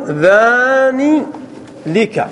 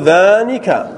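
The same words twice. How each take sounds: First: "ذاني لك" drawn out as dhaaanii, pause, then lika; forbidden form with lam. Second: "ذانك" said as one word, dhaanika, no l; correct form without lam. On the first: Teacher showing students a forbidden dual form, slow and split. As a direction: stretch "ذاني", then add a separate "لك" with an l. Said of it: "فلا يجوز أن تقول". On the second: Teacher giving students the allowed dual form, joined up. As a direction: say "ذانك" joined up, long aa then nika. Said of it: "فتقول". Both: Shown as a demonstration.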